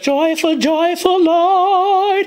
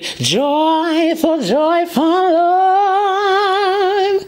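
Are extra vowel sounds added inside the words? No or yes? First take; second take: no; yes. First: The words are said plainly without added vowels. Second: The words carry extra shadow vowels and glides. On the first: "instead of" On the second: "adding like schwas or shadow vowels"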